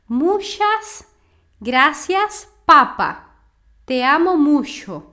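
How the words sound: It is said with a heavy Portuguese-like accent. "eu vou falar mais cerrado ... Essa pronúncia tá muito errada"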